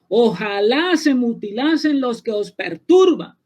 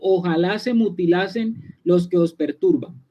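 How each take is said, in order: First: It is said in a raised, exclaiming tone. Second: It is said in a calm, plain tone.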